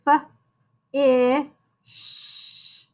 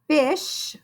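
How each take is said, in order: First: "f-, ish" in separate sounds, with a pause between; sounded out. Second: Said in the usual way. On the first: Shown as a demonstration. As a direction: sound out f-, ish slowly, drawing out the sh. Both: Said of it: "you can sound out".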